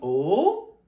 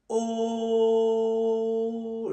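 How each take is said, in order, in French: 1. Le ton monte vers le haut. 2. Le ton reste plat et stable. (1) "Le son, il monte. Tout simplement, il monte" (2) "Il est tout plat"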